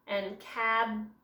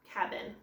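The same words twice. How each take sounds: First: Cabin said slowly, cut into cab and in; split into syllables. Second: Said in the usual way. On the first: Shown as a demonstration. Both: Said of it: "So this would be secret".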